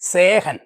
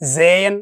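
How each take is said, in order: First: The middle h sound is clearly pronounced. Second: The middle h sound is left silent. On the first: The speaker calls it wrong. "അപ്പോൾ അവർ ഹ ഉച്ചരിച്ച് വായിച്ചു" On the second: The speaker calls it right. "ശരിക്ക് വായിക്കുന്നത് എങ്ങനെയാണെന്ന് പറയാം"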